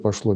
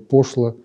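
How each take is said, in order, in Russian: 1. Ударение на втором слоге. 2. Ударение на первом слоге.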